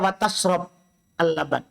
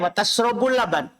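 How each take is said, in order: First: The verb ends with no vowel. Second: The verb ends with a u vowel. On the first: Drinking milk is also forbidden. "waw atop. Berarti dibaca wa tashrob al-laban" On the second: Drinking milk is allowed as a new statement. "Bisa juga waw istinafiyah wa tashrabul laban"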